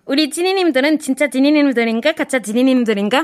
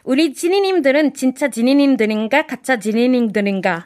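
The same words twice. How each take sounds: First: It is said fast. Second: It is said at a normal pace.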